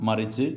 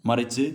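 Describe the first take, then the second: No difference in how they are said.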